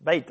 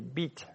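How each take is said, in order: First: "Beit" tried softly with a gliding vowel; alternative pronunciation. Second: "beat" with a long ee, softly tried; tentative pronunciation. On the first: Preacher unsure of the Hebrew, trying "Beit" as an alternative. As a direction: offer "Beit" quietly as another attempt. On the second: Preacher trying the Hebrew word, "beat" with long ee. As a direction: say "beat" quietly, rising as if unsure. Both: Shown as a demonstration. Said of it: "I don't know how to pronounce it".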